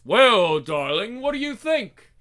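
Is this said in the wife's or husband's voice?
husband's. It is said in the husband's voice.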